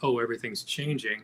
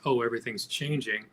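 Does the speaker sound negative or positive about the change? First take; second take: negative; negative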